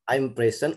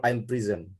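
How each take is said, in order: First: "present" as PREZ-en, open first e; noun-style pronunciation. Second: "prison" as pri-ZEN, i first; verb-style pronunciation. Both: Shown as a demonstration. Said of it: "Which is correct?".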